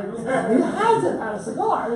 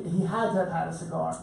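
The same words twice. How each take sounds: First: Laughing through the words. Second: Said in the usual way. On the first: Real, not acted. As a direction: say it again, chuckling at the image. Repeats the line with a laugh.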